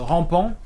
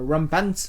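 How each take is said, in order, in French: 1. Le mot se prononce à la française. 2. Le mot se prononce à l'anglaise. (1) "je vais le prononcer à la française" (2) "si c'est anglais"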